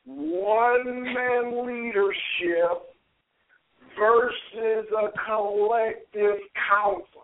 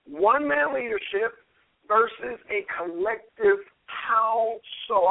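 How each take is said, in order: First: The phrase is spoken very slowly in a deep voice. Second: The phrase is spoken at an ordinary speaking speed.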